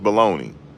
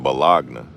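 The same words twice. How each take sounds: First: The word is said in its usual form. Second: The word is sounded out as it is spelled. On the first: The speaker calls it right. "My mother said, "Boy, it's bologna."" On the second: The speaker calls it wrong. "we had to sound out words. I said bologna"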